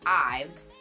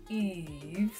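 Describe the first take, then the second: First: The name rhymes with 'hives'. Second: The name sounds like 'Eve'. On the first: The speaker calls it wrong. "it's not Ives" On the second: The speaker calls it right. "it is Yves, like you're saying E V E S, like Eve Eve"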